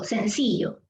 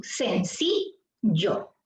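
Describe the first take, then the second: First: Said in the usual way. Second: "sencillo" very slowly as sen, ci, llo; syllable by syllable. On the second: Shown as a demonstration. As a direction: break "sencillo" into three separate syllables. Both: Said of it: "Vamos a pronunciarlo de corrido".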